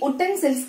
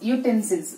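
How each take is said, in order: First: The word begins with a plain oo vowel. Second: The word begins with a y glide, yoo. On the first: The speaker calls it wrong. "ఇది ఉటెన్సిల్స్ కాదు" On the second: The speaker calls it right. "యూటెన్సిల్స్ యూటెన్సిల్స్"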